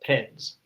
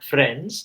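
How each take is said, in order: First: It begins with a p-like sound, lips touching. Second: It begins with a plain f sound. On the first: "they say friends. ... Because the lips are touching" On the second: "if they want to say friends"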